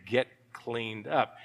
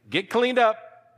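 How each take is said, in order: First: Low, soft and slow; quiet pointed command. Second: High, slow, emphatic command; calling out. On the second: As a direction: pitch it up and stretch it out as a summons. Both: Acted.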